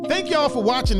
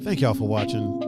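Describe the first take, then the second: First: It is yelled loudly with high energy. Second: It is said in a calm talking voice. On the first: "Why do I yell that?" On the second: "I could just talk it"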